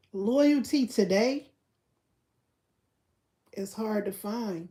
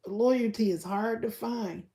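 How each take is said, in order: First: Loyalty today drawn out slowly, then a long pause before is hard to find; slow dramatic pause. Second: Said in the usual way. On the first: Shown as a demonstration. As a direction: preach Loyalty today slowly and let the silence hang. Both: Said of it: "repeats it slowly with a pause".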